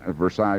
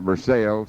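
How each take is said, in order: First: The name is said the non-local way. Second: The name is said the local way. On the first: This is not what the town is called. "it's not Versailles" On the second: This is what the locals call the town. "but they call it Versailles"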